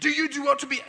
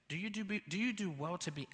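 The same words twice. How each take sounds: First: The words are said loudly as a shout. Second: The words are said softly and gently. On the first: God asks in anger. "God's not going to shout" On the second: God asks with mercy and grace. "you can tell there's a gentle inflection"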